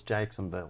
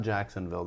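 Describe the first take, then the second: First: Southern accent. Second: Said in the usual way. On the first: Shown as a demonstration. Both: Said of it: "you have to say it with an accent".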